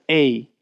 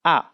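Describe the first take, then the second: First: A said as English "ay"; English letter name. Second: A said as an open "ah"; Japanese vowel. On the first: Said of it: "this is not a". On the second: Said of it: "this is pronounced". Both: Shown as a demonstration.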